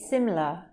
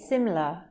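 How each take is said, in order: First: The second vowel is dropped entirely. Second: The same.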